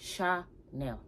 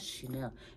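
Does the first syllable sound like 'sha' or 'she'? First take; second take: sha; she. First: The first syllable sounds like 'sha'. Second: The first syllable sounds like 'she'. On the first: The speaker calls it right. "It's Chanel. ... It's a Sha" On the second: The speaker calls it wrong. "It's not Chanel. ... It's not a she"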